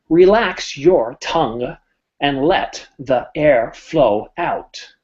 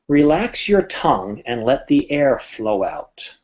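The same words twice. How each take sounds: First: Every consonant and vowel is pronounced separately and clearly. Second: The consonants are softened and the words blend together. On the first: The speaker calls it wrong. "making sure every consonant and vowel was clear, it would sound a little awkward" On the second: The speaker calls it right. "everything else kind of blended together"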